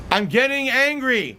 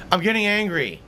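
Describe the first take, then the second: First: Higher-pitched, mounting irritation; growing anger. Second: Anger held in check; mild irritation. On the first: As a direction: let the temper start to rise. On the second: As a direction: warn with only a touch of irritation. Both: Real, not acted.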